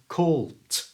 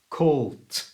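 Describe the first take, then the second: First: The word ends in a voiceless t sound. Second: The same.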